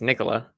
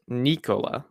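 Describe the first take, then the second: First: The first vowel is not a long 'ee' sound. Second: The first vowel is a long 'ee' sound. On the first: This is how the speaker thinks it should be said. "I think it's Nikola" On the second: This is the founder's own pronunciation. "He pronounces it Nicola, like N E E K O L A"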